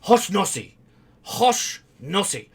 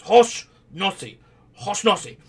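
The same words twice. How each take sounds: First: Mock yell of the name with a Japanese accent; imitating professor's yell. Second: The name yelled again in a mock Japanese accent. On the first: Student mimics the professor's Japanese-accented shout. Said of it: "he starts yelling". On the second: Student mimics the professor calling out his name, Japanese accent. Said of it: "strong Japanese accent".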